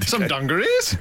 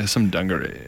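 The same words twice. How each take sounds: First: The pitch rises at the end. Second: The voice is low and creaky at the end. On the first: The speaker calls it right. "That's a word it's impossible not to say with uplift" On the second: The speaker calls it wrong. "vocal fry doesn't work"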